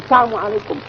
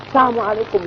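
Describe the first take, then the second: No difference in how they are said.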